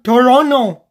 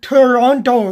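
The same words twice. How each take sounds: First: The T sound in the word is silent. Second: The T sound in the word is pronounced. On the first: The speaker calls it right. "Not with the T because the T is silent" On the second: The speaker calls it wrong. "you don't pronounce it Toronto"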